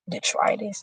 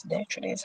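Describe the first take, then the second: First: "detritus" said as dee-TRY-dis, soft and tentative; trying a pronunciation. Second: "detritus" said as DEH-truh-tis, very soft; second pronunciation try. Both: Shown as a demonstration. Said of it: "how is it pronounced?".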